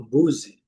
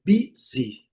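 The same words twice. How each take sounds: First: "busy" said as "BOO-zee"; students' mistaken pronunciation. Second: "busy" as "BEE-zee", both vowels clearly i; correct pronunciation. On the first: Teacher imitating students' mistake, u-sound "busy". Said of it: "às vezes cometem". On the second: Teacher correcting students, clearly pronounced "busy". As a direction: say "busy" slowly, strong first syllable. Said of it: "a pronúncia é busy". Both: Shown as a demonstration.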